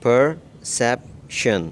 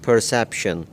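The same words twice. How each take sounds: First: perception drawn out slowly, syllable by syllable; very slow teacher demo of perception; slow model word. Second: Said in the usual way. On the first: Shown as a demonstration. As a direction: stretch perception out slowly for learners. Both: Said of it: "pronunciation है".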